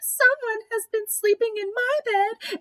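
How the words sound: It is said in a wee little voice.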